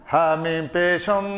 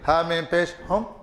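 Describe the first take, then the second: First: The m is held with a long nasal hum. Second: The m is short, with no nasal hum. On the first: The speaker calls it right. "गुन्ना करेंगे" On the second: The speaker calls it wrong. "ये ये गलत है"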